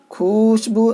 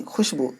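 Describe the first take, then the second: First: खुशबू with the waw sounded, khu-shboo, said as the error; wrong pronunciation. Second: खुशबू said as khushboo, kh straight into shin, no waw; khushboo, clean and unstressed; correct pronunciation. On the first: Teacher showing students the wrong reading of खुशबू. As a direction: stress the waw in खुशबू to show what not to say. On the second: Teacher giving students the right reading of खुशबू. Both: Shown as a demonstration. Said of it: "खुशबू नहीं".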